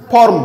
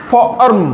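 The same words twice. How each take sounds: First: ফর্ম as one short syllable, form; blended word. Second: ফর্ম stretched in two pieces, fo-orm; sounded out. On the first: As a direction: say ফর্ম whole, no break. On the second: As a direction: break ফর্ম before its 'orm'. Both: Shown as a demonstration. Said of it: "ও আর দিয়ে উচ্চারণ হবে অর".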